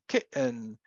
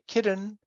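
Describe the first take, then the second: First: The middle t is a glottal stop. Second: The middle t is a quick tongue flap. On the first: "you don't do anything with the tongue and you just have a glottal stop" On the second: "you can say kitten with a flap"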